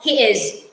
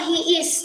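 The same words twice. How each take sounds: First: The last word ends with a buzzing z sound. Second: The last word ends with a hissing s sound. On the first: The speaker calls it right. "No, he is. It's a Z sound" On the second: The speaker calls it wrong. "don't say"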